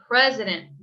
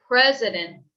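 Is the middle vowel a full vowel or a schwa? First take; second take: schwa; schwa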